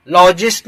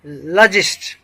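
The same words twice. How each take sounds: First: "लॉजिस्ट" with an open, long "law" first syllable; wrong pronunciation demo. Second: "लॉजिस्ट" with a reduced vowel, la-jist; correct pronunciation demo. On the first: Teacher showing learners what to avoid, "लॉजिस्ट" said LAW-jist. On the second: Teacher giving learners the right form, "लॉजिस्ट" said luh-jist. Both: Shown as a demonstration. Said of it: "लॉजिस्ट नहीं".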